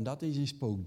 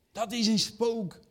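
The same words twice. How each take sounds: First: Said in the usual way. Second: High, slow mock cry of fear; "Dat is een spook" drawn out high in mock alarm; mock fright. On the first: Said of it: "en dat je dan hoort". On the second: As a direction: ham up the scared cry higher and slower. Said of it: "de eerste menselijke reactie".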